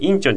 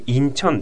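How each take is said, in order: First: The first syllable is the stronger one. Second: The second syllable is the stronger one. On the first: The speaker calls it wrong. "インチョンじゃなくて" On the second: The speaker calls it right. "インチョンですね"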